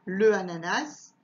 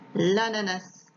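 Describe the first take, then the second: First: The article's vowel is kept before the noun. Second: The article's vowel is dropped before the noun. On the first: The speaker calls it wrong. "je dis pas" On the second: The speaker calls it right. "je dis"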